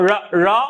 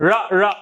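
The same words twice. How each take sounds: Both takes have the same delivery.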